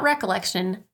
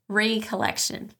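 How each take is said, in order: First: The first syllable is a short 'reck'. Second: The first syllable is a separated, long 'ree'. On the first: Remembering something from the past. The speaker calls it wrong. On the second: Gathering oneself together again. The speaker calls it right.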